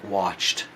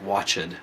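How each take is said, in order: First: The final -ed sound is soft and light. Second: The final -ed sound is strong and heavy. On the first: The speaker calls it right. "pronounce it softer, like watched" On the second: The speaker calls it wrong. "instead of like watched"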